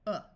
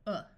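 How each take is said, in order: First: The vowel is a short uh sound. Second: The same.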